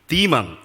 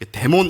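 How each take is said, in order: First: The word is said with English-style sounds. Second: The word is said with Korean-style sounds. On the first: This is how the dictionary gives it. The speaker calls it right. "사전 찾아보니 demon 이렇게 발음을 하더군요" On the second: Americans would not understand it. The speaker calls it wrong. "이렇게 하면 미국 사람들 못 알아들어요"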